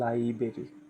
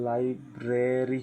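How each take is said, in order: First: The first r sound is left out. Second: The first r sound is clearly pronounced. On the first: The speaker calls it right. "এর উচ্চারণ হবে লাইব্রেরি। ... প্রথম ওয়ার্ডের আর এর উচ্চারণ হবে না" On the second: The speaker calls it wrong. "এটা কিন্তু লাইব্রেরি হবে না"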